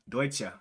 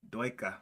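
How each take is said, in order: First: The word ends with a soft 'cheh' sound. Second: The word ends with a hard 'ka' sound. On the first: The speaker calls it right. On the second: The speaker calls it wrong.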